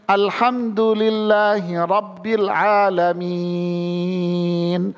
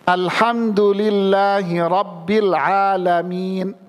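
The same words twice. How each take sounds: First: The lengthened vowels are held for unequal lengths. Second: The lengthened vowels are held for equal lengths. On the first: The reciter does not understand the vowel lengths. The speaker calls it wrong. "Nggak boleh dibaca gini" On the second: The reciter keeps the vowel lengths consistent. The speaker calls it right. "Jadi konsisten"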